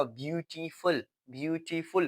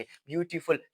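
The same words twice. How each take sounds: First: ब्यूटीफुल split into ब्यू, टी, फुल; teacher sounding out ब्यूटीफुल syllable by syllable; three jerks. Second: Said in the usual way. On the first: Shown as a demonstration. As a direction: say ब्यूटीफुल in three separate beats. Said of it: "three jerk में". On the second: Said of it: "three jerks में वो".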